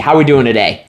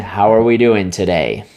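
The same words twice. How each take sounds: First: It is said with lively, high energy. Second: It is said flatly, with low energy. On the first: The caller sounds like they are having a great day. The speaker calls it right. "Make sure you set the tone. Have energy" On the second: The caller does not get the listener excited. The speaker calls it wrong. "If you're just going, ... That's not getting them excited"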